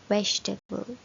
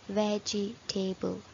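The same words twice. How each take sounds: First: The word is said with three syllables. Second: The word is said with four syllables. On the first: The speaker calls it right. "The correct way of pronouncing this word is" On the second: The speaker calls it wrong. "it looks like they should be four syllable"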